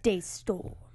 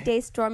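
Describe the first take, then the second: First: The name is said in a deep, dramatic voice. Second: The name is said in an ordinary speaking voice.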